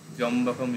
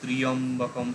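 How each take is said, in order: First: The word is said with three syllables. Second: The word is said with four syllables.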